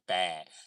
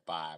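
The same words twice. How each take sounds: First: The word is said with a Chicago pronunciation. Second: The word is said with a standard pronunciation. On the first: "in Chicago ... we say five" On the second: "we don't say five"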